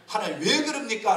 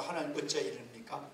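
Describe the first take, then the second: First: Blunt complaint. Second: Low, hushed question to God; indirect, dignified complaint. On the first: Pastor showing how not to question God, blunt complaint. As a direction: direct challenge with a strong WHY. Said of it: "라고 하면 불평이 돼요". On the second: Pastor modelling a polite complaint to God, restrained and quiet. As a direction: soften the complaint, drop pitch and volume. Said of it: "직설적으로 표현하지 말고". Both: Shown as a demonstration.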